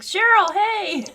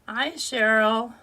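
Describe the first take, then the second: First: The greeting sounds lively and enthusiastic. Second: The greeting sounds flat and unenthusiastic.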